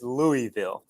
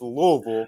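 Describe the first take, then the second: First: It is pronounced the way outsiders say it. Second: It is pronounced the way locals say it. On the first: The speaker is not from the area. "the people not from around here" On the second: The speaker is from the area. "For the people from around here"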